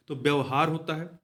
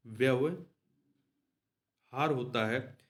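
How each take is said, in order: First: Said in the usual way. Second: व्यवहार होता है drawn out slowly, each syllable of व्यवहार stretched; slow, spelled-out correction. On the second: Shown as a demonstration. Teacher dictates the right spelling व्यवहार to students, slowly drawn out.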